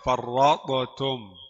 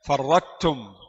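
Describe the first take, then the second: First: Both t sounds are said separately and clearly. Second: Only a plain light t is heard. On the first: "Ini jelas, izhar. Tidak boleh" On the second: "baca ta saja. Idgham kamil"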